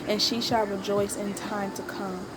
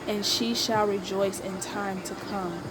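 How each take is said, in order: The two takes are said the same way.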